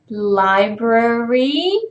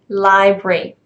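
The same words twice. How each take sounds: First: The word is said in its full form. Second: The word is said in a reduced form. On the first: The speaker calls it wrong. "you wouldn't say that" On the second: The speaker calls it right. "You would say library"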